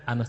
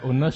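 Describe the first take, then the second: First: The first vowel is an open 'a' sound. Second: The first vowel is a rounded 'u' sound. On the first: "kalau menurut kaidah imla, dibacanya pakai fathah seperti itu" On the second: "bebas mau dibaca Unush"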